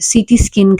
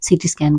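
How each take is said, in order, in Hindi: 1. दूसरे शब्द में 'skin' वाला स्वर है। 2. दूसरे शब्द में 'scan' वाला स्वर है। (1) "मोस्ट ऑफ द टाइम" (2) "ये वर्ड भी सही प्रोनाउंस कर रहे होते हैं"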